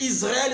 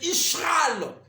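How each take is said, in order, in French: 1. La consonne du milieu est un simple son 's'. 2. La consonne du milieu est un son 'sh'. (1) "Au lieu de Israël, c'est Ishral" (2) "c'est Ishral"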